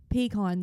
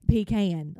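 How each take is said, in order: First: "pecan" as pee-KAHN; "pecan" ending like "con"; her own pronunciation. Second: "Pecan" as pee-CAYN; "Pecan" with a long A; local pronunciation. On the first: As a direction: say "pecan" with an open ah in the second syllable. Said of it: "I don't even say". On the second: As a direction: stretch the second syllable of "Pecan" to rhyme with cane. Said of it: "the way that other people say". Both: Shown as a demonstration.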